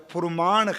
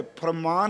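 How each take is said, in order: First: ਫੁਰਮਾਨ said with short u, phur-maan; ਫੁਰਮਾਨ with u after ph; with aunkar. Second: ਫਰਮਾਨ said with a, phar-maan; ਫਰਮਾਨ, plain a after ph; without aunkar. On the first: (ਫੁਰਮਾਨ ਔਂਕੜ ਨਾਲ) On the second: (ਫਰਮਾਨ ਬਿਨਾ ਔਂਕੜ) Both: Shown as a demonstration. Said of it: "ਪਰ ਇੱਥੇ ਨਾਣਾ ਲੱਗਾ".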